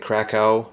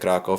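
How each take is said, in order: First: The name is said with an anglicized pronunciation. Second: The name is said with a Polish pronunciation. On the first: The speaker calls it wrong. "I used to keep pronouncing it Krakow" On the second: The speaker calls it right. "in Polish they pronounce it Krakow"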